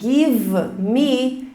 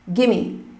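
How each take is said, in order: First: The v sound is fully pronounced. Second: The v sound is dropped. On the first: "ao invés de give me" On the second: "Tira o V aqui, fica gimme"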